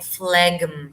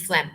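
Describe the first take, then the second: First: PHLEGM as "fleg-m", G sounded; PHLEGM with hard G. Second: PHLEGM said as "flem"; PHLEGM with silent G. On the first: Tries the word before being corrected. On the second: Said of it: "Pronounce as phlegm". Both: Shown as a demonstration.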